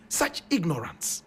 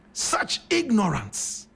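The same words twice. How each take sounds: First: Said in the usual way. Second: "Such ignorance" said slowly, leaning hard on "ignorance"; slow emphatic repeat. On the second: Real, not acted. Host repeating it to listeners, slow and emphatic. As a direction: drag out "ignorance" in disbelief.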